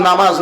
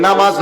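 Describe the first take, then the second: No difference in how they are said.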